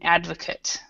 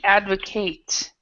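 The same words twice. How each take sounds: First: It is said with the noun pronunciation. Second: It is said with the verb pronunciation. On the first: It names a person who supports something. "but as a noun, it's an advocate" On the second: It names the action of supporting something. "so we have to advocate"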